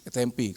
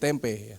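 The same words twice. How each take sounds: First: The word is pronounced the English way. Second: The word is pronounced the Indonesian way. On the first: "Inggris Tempe" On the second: "kalau dalam bahasa Indonesia jadi tempe"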